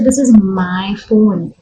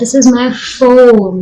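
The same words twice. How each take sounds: First: The word my carries the stress. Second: The word phone carries the stress. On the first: It belongs to me and nobody else. "which means it's my phone, nobody else's" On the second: It is a phone and not some other object. "It's not my keyring, it's not my earring, it's my phone"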